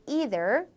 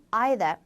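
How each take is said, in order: First: Either starting with ee, like ee-ther; American either; 미국식 either; American pronunciation. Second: Either starting with ai, like eye-ther; British either; 영국식 either; British pronunciation. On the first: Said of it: "미국에서는 either". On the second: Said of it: "영국에서는 either". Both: Shown as a demonstration.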